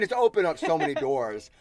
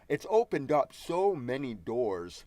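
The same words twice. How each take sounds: First: The words are spoken casually with normal reductions. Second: Every sound is pronounced crisply and with exaggeration.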